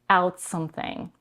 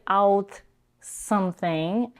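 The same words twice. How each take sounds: First: The T and S merge together. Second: The T and S are pronounced separately. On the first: The speaker calls it right. "Notice how she's merging the T and the S together" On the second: The speaker calls it wrong. "So it doesn't sound like out something"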